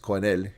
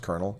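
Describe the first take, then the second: First: The word is pronounced the French way. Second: The word is pronounced the English way. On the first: "In French, it's colonel" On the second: "It's pronounced colonel"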